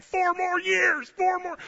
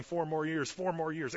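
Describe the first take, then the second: First: Chanted, high, drawn-out rally shout; chanted, belt it out like a fired-up rally crowd; slow full-voiced chanting yell. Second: Said in the usual way. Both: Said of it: "we're all yelling".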